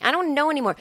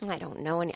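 First: Higher, full-voiced restart; exasperated uncertainty. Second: Low, very soft, broken-off start; quiet uncertainty. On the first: Podcaster at a loss, higher exasperated uncertainty. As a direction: lift the pitch in helpless confusion. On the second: Podcaster at a loss, quiet uncertainty. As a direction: murmur it and break off. Starts softly, then restarts higher. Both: Real, not acted.

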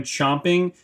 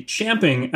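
First: "chomping" with an open "om" vowel; common pronunciation. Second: "champing" with the vowel of "champ"; corrected pronunciation. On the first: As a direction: say "chomping", first vowel as in "chop". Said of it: "or as it should be, champing". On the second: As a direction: say "champing", first vowel as in "cat". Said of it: "or as it should be". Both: Shown as a demonstration.

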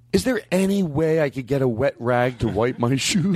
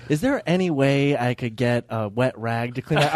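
First: Meek, timid request in a put-on voice; Brian Regan voice. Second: Slow, meek, laughing request; Brian Regan voice. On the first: A comic to a worker asking for a rag, meek put-on voice. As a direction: ask for a wet rag like a meek little man. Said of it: "and I did it with that voice". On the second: Retold or imitated. A friend retells the comic's plea to a worker, meek and laughing. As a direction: retell his timid plea while laughing. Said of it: "do the Brian Regan bit".

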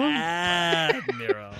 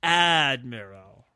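First: "Admiral" with the first syllable hugely stretched, then falling; stress-point imitation. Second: "Admiral" slow and long on the first syllable, in a put-on voice; stress-point imitation. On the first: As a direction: draw out the "Ad" of "Admiral" in mock drama. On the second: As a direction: stretch "Admiral" out with theatrical relish. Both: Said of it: "tries out all of the potential stress points".

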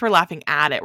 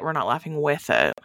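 First: "at" stressed, the other words lighter. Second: "with" stressed, the other words lighter. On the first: Co-host conceding a point about slasher movies, stress on "at". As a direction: lean on "at" as the contrasting word. Contrasting laughing at with laughing with. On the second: Co-host conceding a point about slasher movies, stress on "with". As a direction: lean on "with" as the contrasting word. Contrasting laughing with to laughing at. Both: Real, not acted.

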